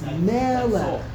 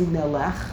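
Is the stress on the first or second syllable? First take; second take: first; second. First: The stress is on the first syllable. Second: The stress is on the second syllable. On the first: The speaker calls it right. "It's on the first syllable" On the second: The speaker calls it wrong. "You don't say melech. That's a bad mistake"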